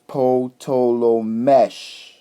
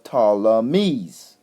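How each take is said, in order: First: The name ends with an sh sound. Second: The name ends with a z sound. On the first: The speaker calls it right. "we usually pronounce it as mesh" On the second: The speaker calls it wrong. "that they call the Ptolemies"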